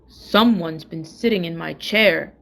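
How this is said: It is said in a great big voice.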